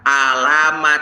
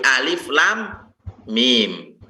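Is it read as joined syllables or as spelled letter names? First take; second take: joined syllables; letter names. First: The letters are read together as one word. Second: Each letter is read by its full name. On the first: The speaker calls it wrong. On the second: The speaker calls it right.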